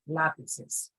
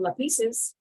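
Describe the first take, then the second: First: The stress is on the first syllable. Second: The stress is on the second syllable. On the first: The speaker calls it right. "Lapis has to have the accent on the first letter A" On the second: The speaker calls it wrong. "It doesn't become lapises"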